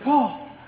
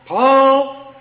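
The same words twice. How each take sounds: First: The name is called in an anxious, urgent tone. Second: The name is called in an irritated, impatient tone. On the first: The caller fears something has happened to the child. "I'm going to have a different tone in my voice" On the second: The child took something and the caller is exasperated. "my tone is going to change"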